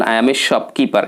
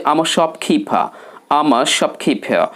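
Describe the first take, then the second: First: Said in the usual way. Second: "shopkeeper" as shop-khee-pha, puffed and r-less; smart accent. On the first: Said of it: "সাধারণভাবে অধিকাংশ ব্যক্তি". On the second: Shown as a demonstration. Teacher models shopkeeper's answer, smart r-less accent. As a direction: run "I'm a" together as am-a. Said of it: "smart অ্যাকসেন্টে কথা বলতে হবে".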